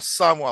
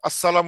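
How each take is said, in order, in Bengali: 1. গ্রিটিংয়ে l ধ্বনিটি বাদ দেওয়া হয়। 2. গ্রিটিংয়ে l ধ্বনিটি স্পষ্টভাবে উচ্চারণ করা হয়। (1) "সালামটা লামটা উচ্চারণ করবে না" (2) "আমরা ভালোভাবে দিচ্ছি"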